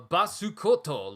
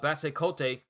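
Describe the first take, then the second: First: It is said with a Japanese pronunciation. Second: It is read with an English-style pronunciation.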